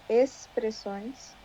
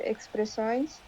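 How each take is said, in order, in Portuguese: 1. O x é pronunciado como s. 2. O x não é pronunciado como s. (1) "nós falamos expressões... o X fica com som de S" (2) "geralmente expressões"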